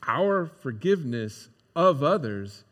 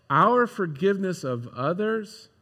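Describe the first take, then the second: First: "Our forgiveness of others" said slowly, with OF stretched and weighted; slow, stress on OF. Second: "Our forgiveness of others" with OUR leaned on at the start; stress on OUR. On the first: Pastor hammering home a hard truth, slow with OF stressed. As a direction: lean on "of", and let the phrase crawl. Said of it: "is not tied to their". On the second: Pastor stating his second point, stress on OUR. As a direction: open on a firm "Our", then let "forgiveness of others" run on. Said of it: "activates God's forgiveness". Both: Shown as a demonstration.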